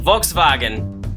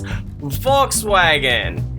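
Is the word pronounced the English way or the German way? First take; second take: German; English. First: The word is said with a German pronunciation. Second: The word is said with an English pronunciation. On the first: "in German" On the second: "in regular English"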